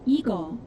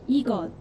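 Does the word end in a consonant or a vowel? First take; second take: vowel; consonant. First: The word ends on an open vowel. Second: The word ends with a short consonant. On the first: "But you can also say" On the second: "With a little extra consonant at the end"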